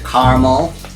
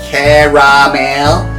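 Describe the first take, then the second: First: The word is said with one vowel dropped. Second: The word is said with all three syllables. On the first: It is how other people say it. "I know people call it, pronounce it caramel, unless you, you know, eliminate the last A" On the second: It follows the written spelling. "that's how I pronounce it because uh, I look at the wording"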